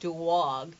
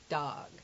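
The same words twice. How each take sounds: First: The vowel is drawn out with a glide, New York style. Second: The vowel is short and plain, standard American style. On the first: "he's saying dog" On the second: "the standard accent is dog"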